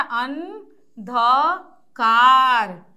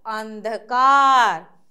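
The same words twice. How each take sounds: First: अंधकार stretched very slow and loud; slow loud teaching read. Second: Said in the usual way. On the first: Shown as a demonstration. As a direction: drag out अंधकार syllable by syllable. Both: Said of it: "ऊंचे स्वर में पढ़िए".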